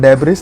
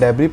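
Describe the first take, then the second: First: The word ends with an audible s sound. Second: The word ends without any s sound. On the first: The speaker calls it wrong. "इसको डेब्रिस नहीं पढ़ना" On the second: The speaker calls it right. "डेब्री पढ़ना"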